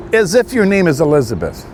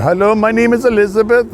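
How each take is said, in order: First: Said in the usual way. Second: Higher, sing-song fake-friendly phone voice; lightly voiced scammer woman introducing herself; mock call-center greeting. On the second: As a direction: imitate a scammer faking a sweet hello. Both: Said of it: "You know, a female on there".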